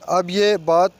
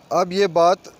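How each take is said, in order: Both takes have the same delivery.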